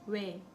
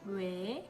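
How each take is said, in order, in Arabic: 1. يُنطق الحرف المتحرك بالسرعة العادية. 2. يُمدّ الحرف المتحرك ببطء. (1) "Wenn man normal spricht" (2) "Wenn man langsam spricht"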